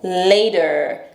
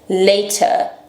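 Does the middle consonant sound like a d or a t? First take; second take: d; t. First: The middle consonant sounds like a d. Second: The middle consonant is a clear t. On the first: "Em inglês americano, ... É como se fosse um D, não um T" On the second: "T em inglês britânico"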